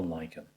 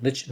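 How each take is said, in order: First: "lichen" said LIKE-en, k in the middle; pronounced LIKE-en. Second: "Lichen" said LITCH-en, ch in the middle; pronounced LITCH-en. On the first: Painting teacher asking how it's said, "lichen" as LIKE-en. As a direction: say "lichen" just like "liken". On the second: Painting teacher asking how it's said, "Lichen" as LITCH-en. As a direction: say "Lichen" to rhyme with kitchen. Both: Shown as a demonstration. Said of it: "How do you say it?".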